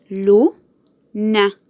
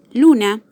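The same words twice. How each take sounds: First: "luna" as LU - na, LU rising sharply, then a pause; syllable by syllable. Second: Said in the usual way. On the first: Shown as a demonstration. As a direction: split "luna" in two, lifting LU. ("luna" separada en sílabas, LU marcada) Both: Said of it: "tiene su acento en la sílaba lu".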